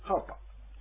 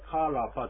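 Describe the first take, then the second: First: No vowel is sounded between r and p. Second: A vowel is sounded between r and p. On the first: The speaker calls it right. "カーパーというふうに言うと、これは発音できます" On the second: The speaker calls it wrong. "カーラーパーじゃなくて"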